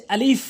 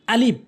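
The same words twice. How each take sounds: First: আলিফ ending in a long, airy f; correct pronunciation. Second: আলিফ with a hard b-like stop at the end; wrong pronunciation. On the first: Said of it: "এর সঠিক উচ্চারণ হচ্ছে". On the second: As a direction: close আলিফ on the lips, as "alib". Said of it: "এটি ভুল উচ্চারণ". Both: Shown as a demonstration.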